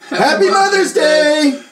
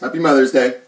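First: It is said with lively feeling. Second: It is said flatly, without much feeling. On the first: The speaker calls it right. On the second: The speaker calls it wrong.

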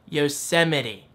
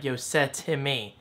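First: The word ends with a 'mitty' sound. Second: The word ends with a 'time' sound. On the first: The speaker calls it right. "how to actually pronounce Yosemite the correct way" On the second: The speaker calls it wrong. "at first I was saying Yosetime, like Yosetime"

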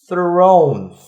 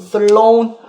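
First: The r is smooth, with no tongue contact. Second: The tongue taps the mouth roof on the r. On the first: The speaker calls it right. "안 닿게끔 이렇게 해야지 이렇게" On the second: The speaker calls it wrong. "R이 지금 자꾸 다이니까 자꾸 thrown, 뭐 throughout 이렇게 된다고"

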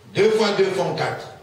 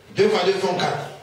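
No difference in how they are said.

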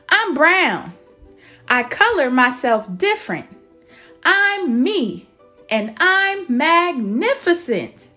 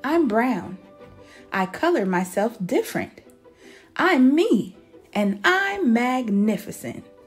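First: It is said a little louder. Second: It is said at normal volume.

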